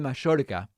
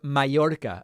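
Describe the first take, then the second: First: Mallorca is said with an Argentinian pronunciation. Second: Mallorca is said with a non-Argentinian pronunciation.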